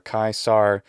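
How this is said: It ends with an American English r sound. "or kaisar if it's American"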